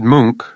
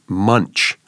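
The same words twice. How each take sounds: First: The name is said the Norwegian way. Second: The name is said the Canadian way. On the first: "So this is like the Norwegian pronunciation" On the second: "There's a famous Canadian writer who pronounces the name Munch"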